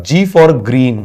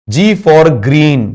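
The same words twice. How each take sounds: First: Said in the usual way. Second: Slow, drawn-out mnemonic. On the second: Shown as a demonstration. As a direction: stretch out G for green slowly, letter by letter. (धीरे-धीरे खींचकर "G for green") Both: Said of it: "G for green बन जाएगा".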